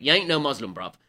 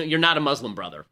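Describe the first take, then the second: First: Lightly put-on Cockney, dropping on the last word; imitated Cockney accent. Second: Said in the usual way. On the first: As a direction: say it as a mock Cockney. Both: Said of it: "do it in a Cockney accent".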